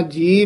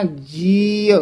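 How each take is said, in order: First: ਜੀ as a bare "jee"; short ਜੀ, nothing after the ee; final vowel dropped. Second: ਜੀ stretched as "jee-a"; long ee in ਜੀ with a slight a after; drawn-out ਜੀ ending in a light a; faint final vowel. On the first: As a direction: cut the final a from ਜੀ. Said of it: "ਐੜਾ ਛੱਡ ਹੀ ਜਾਂਦੇ ਹਨ". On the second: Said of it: "ਇਹਦਾ ਉਚਾਰਨ ਹੈ ਜੀ". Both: Shown as a demonstration.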